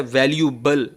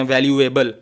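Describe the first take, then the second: First: वैल्यूएबल said as "val-yu-bal", no "ay"; teacher's model of वैल्यूएबल: "val-yu-bal"; correct pronunciation. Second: वैल्यूएबल read as "val-yu-ay-bal"; students' misreading of वैल्यूएबल, sounding every letter: "val-yu-ay-bal"; students' mispronunciation. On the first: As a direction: run वैल्यूएबल straight from "yu" into "bal". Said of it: "इसका सही तलफ़ुज़ है". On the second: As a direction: say वैल्यूएबल with a separate "ay" before -bal. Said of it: "बहुत से बच्चे इसको पढ़ते हैं". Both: Shown as a demonstration.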